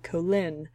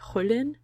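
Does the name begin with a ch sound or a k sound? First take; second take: k; ch. First: The name begins with a k sound. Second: The name begins with a ch sound.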